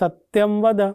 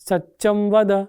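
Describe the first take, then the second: First: The first word has a clear 'ty' sound. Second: The first word has a doubled 'ch' sound. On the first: It is the refined, grammatically trained form. "આપણે કહીએ કે બોલ સત્યમ વદ" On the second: It is the natural, untrained way a child speaks. "એની કાલી ઘેલી વાણીમાં"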